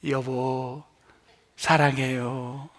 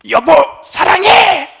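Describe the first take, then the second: First: Soft, slow, loving 여보 사랑해요; tender 여보 사랑해요. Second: 여보, 사랑해 yelled loud and high; shouted love. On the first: Pastor showing how to say 여보 사랑해요 to a spouse, soft and tender. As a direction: coo it gently to your spouse. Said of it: "입에 힘이 안 들어가는 것만 하세요". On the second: Pastor mocking a spouse shouting 여보 사랑해 at home, loud. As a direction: bark the love out with force. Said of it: "뭐 이런 사람 없잖아요". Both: Shown as a demonstration.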